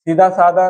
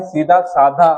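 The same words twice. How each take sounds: First: सीधा साधा with plain "da" endings; no breath on the endings in सीधा साधा; da for dha. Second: Said in the usual way. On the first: Shown as a demonstration. Teacher showing a wrong spelling, plain "da" in सीधा साधा. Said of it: "ना धा नहीं आएगा". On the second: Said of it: "नहीं".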